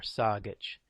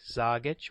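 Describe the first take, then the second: First: The word begins with a voiceless S sound. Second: The word begins with a voiced Z sound. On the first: "the Z or the S" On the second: "the Z or the S"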